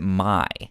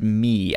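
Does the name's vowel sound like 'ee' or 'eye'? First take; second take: eye; ee. First: The name ends in an 'eye' vowel. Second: The name ends in an 'ee' vowel. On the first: "I pronounced it My" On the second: "So you pronounced it Me"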